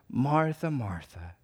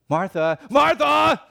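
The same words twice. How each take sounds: First: It is said gently and tenderly. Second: It is said harshly, like a scolding.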